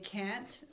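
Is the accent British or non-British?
non-British. It is said in a non-British accent.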